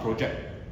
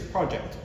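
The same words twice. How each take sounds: First: The stress is on the second syllable. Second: The stress is on the first syllable. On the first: The speaker calls it wrong. "It's not project" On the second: The speaker calls it right. "if it's a noun, the emphasis is on the first syllable"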